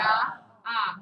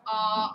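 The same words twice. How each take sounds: First: The vowel sounds bright and forward. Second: The vowel sounds low, warm and dark. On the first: "the bright Italian ah" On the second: "a little low in the mouth... It's a nice warm ah"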